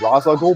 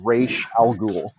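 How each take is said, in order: First: The first word sounds like 'Roz'. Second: The first word sounds like 'Raish'. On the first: The speaker calls it wrong. "I always thought it was" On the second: The speaker calls it right. "but it actually is indeed"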